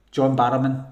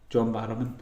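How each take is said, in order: First: Loud burst of remembering; sudden recall. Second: Said in the usual way. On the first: Real, not acted. Streamer finally remembers the actor's name, loud sudden recall. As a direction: blurt the name out loudly as it comes back.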